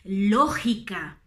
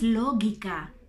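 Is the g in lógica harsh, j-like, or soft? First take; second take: harsh; j-like. First: The g is a strong, harsh throat sound. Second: The g sounds like an English j. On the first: "in maniera molto forte come si usa ad esempio in Spagna" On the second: "por favor, no es lógica"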